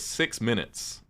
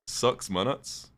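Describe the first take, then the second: First: It is said in the speaker's ordinary accent. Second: It is said in a strong New Zealand accent.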